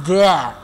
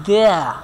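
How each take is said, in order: No difference in how they are said.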